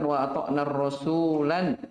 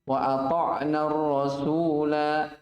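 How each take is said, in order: First: The final word ends with an added n sound. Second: The final vowel is held long, for two counts. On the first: The speaker calls it wrong. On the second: The speaker calls it right. "Kalau antum waqaf, bacanya berapa harokat? Dua"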